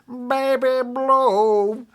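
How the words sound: It is said in a put-on imitating voice. The speaker calls it right. "I have to say it like this. ... in this kind of voice"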